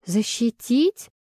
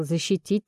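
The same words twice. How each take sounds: First: Slow, rising disbelieving question; shocked gasp. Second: Said in the usual way. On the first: A narrator's reading. Pregnant heroine hears he protected her, shocked echo. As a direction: echo it aghast, drawn out. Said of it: "охнула".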